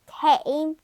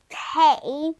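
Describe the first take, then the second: The two takes are said the same way.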